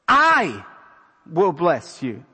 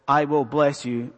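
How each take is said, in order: First: The stress is on I. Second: The stress is not on I.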